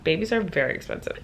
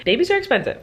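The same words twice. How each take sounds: First: Said in the usual way. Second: Exclaimed. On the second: Real, not acted. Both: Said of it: "Just know that".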